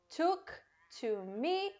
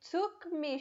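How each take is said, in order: First: The word 'to' is clearly pronounced. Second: The word 'to' is dropped entirely.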